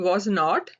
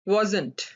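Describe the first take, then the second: First: Two separate full words are said. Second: One shortened, contracted word is said. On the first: "वॉज नॉट होता है" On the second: "उसको आप वॉजंट कहते हैं"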